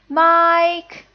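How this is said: The pitch stays high and level. Calling someone in for dinner. "That's the first tone"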